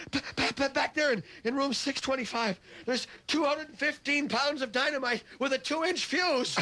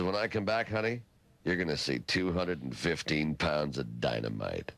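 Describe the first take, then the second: First: High, stammering panic; hammed-up hysterical report in a pitched-up voice; panicked woman. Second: Low, cool self-assured promise; lightly voiced swaggering athlete; cocky boast. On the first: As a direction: gasp out the terrible news, very high. Screaming woman fleeing, reports it. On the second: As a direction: trail down low as you brag. Athlete boasts to woman again.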